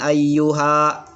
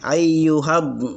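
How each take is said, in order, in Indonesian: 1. Vokal ha dipanjangkan. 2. Ha-nya pendek dan langsung menyambung ke d. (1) "Kenapa bukan ayyuha?" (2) "Karena langs ketika sukun... langsung dimasukkan ke setelahnya saja"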